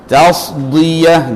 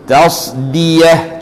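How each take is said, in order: First: The d sound is heavy and emphatic. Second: The d sound is plain and light. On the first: The speaker calls it wrong. "yang salahnya tasdiyah jadi dhad" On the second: The speaker calls it right. "Yang betul dalam Quran ... Kita sebut tasdiyah"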